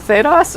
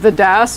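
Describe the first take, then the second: First: It sounds like one single fantasy place name. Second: It sounds like an article plus a separate word. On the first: It is the name of a fantasy realm. "it kind of sounds like an ordinary fantasy realm" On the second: It stands for the Dragon Age setting. "not the Das"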